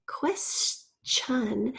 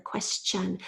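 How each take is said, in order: First: Said in the usual way. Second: "question" with a clear CH: kwes-chun; CH sound shown. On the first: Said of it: "This is that C, uh, H sound". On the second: Shown as a demonstration. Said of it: "H sound that we can hear".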